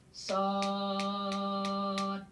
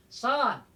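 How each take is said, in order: First: "Sod" held very long on one level note; six-beat elongation. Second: Said in the usual way. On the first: Shown as a demonstration. Teacher demonstrating six beats to students, "Sod" sustained. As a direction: stretch the vowel of "Sod" steadily for six beats. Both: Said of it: "Enam ketukan".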